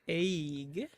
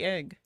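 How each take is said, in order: First: The vowel sounds like 'ay', as in 'day'. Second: The vowel is a short 'eh', as in 'bed'. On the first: This imitates how the other person said it. "It's like A Y Y E G" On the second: This is how the speaker normally says it. "I would say egg"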